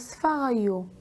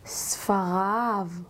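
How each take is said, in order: First: The word ends with a non-'av' sound. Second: The word ends with an 'av' sound. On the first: The speaker calls it wrong. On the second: The speaker calls it right.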